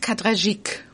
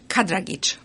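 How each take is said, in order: First: The name is said the French way. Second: The name is said the Bosnian way.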